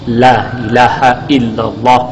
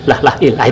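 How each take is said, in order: First: Every word is pronounced fully and intact. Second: The words are clipped and run together. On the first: The speaker calls it right. "harus benar-benar tartil. Dan beliau memberikan contoh paling cepat" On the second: The speaker calls it wrong. "itu nggak boleh dikir itu"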